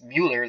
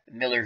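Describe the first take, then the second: First: The name starts with 'mew', with a long u. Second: The name rhymes with 'filler', with a short i. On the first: "or it's Mueller, like the special counsel" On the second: "like uh, Miller, who played for the Red Sox"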